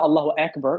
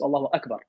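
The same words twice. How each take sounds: First: It is said with a Western accent. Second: It is said with an Arabic accent. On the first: The speaker calls it wrong. "It's not" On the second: The speaker calls it right. "don't be westernized"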